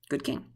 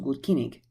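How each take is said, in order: First: It is said with modern English pronunciation. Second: It is said with Old English pronunciation. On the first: "They might be saying that was a good king" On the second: "when I said that was good kinning, you could probably hear like somebody has a heavy accent"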